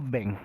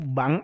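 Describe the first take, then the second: First: The vowel is an English-style 'e' sound. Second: The vowel is an open 'a' sound. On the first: This copies the English pronunciation. The speaker calls it wrong. "kalau beng itu adalah bahasa Ing Inggris" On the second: This is the standard Indonesian form. The speaker calls it right. "Yang baku itu adalah bang"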